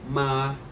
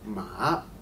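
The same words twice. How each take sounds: First: The pitch stays high and level throughout. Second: The pitch dips low and then rises again. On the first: "The first tone is high and flat" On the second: "You lower your voice and then you raise it"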